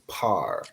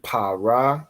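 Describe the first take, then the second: First: It is said as one syllable, without the final vowel. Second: It is said as two separate syllables. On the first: The speaker calls it right. "the a drops off at the end" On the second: The speaker calls it wrong. "instead of saying pa ra"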